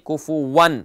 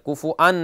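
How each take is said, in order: First: A w sound comes before the 'an'. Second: A glottal catch comes before the 'an'. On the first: The speaker calls it right. "यहाँ हमजा की आवाज़ ना बने" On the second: The speaker calls it wrong. "बहुत से लोग गलती करते हैं, कुफु अन नहीं"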